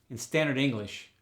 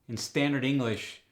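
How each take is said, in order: Both takes have the same delivery.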